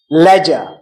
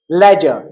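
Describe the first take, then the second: First: It is said in a British accent. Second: It is said in a British accent.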